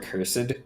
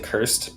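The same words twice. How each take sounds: First: It is said with two syllables, ending -ed. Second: It is said as one short syllable. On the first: "how you can say cursed or cursed" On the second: "shorten them and just say cursed"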